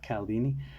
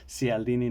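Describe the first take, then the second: First: The name begins with a 'k' sound. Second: The name begins with a 'ch' sound. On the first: The speaker calls it wrong. "not Caldini" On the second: The speaker calls it right. "his last name is pronounced Cialdini"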